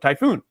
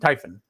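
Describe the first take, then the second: First: The second syllable has a long 'oo' vowel. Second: The second syllable has a short, reduced vowel. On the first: The speaker calls it wrong. "I automatically want to go Typhoon" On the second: The speaker calls it right. "no poon, no un"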